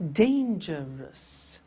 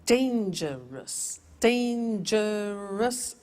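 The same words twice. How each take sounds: First: Dangerous drawn out very slowly in beats; slow syllables. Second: Dangerous spoken very slowly, beat by beat; slowly counted syllables. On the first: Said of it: "How many?". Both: Shown as a demonstration.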